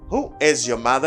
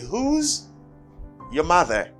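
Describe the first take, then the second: First: 'Who is' is said as two full words. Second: 'Who is' is contracted into one syllable.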